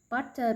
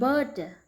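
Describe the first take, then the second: First: The middle consonant is a clear T. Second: The middle consonant sounds like a D.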